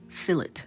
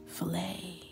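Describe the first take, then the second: First: The final T sound is pronounced. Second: The final T sound is silent. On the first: The speaker calls it wrong. "what's the word that my husband says that drives me crazy?" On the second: The speaker calls it right. "Ignore that T"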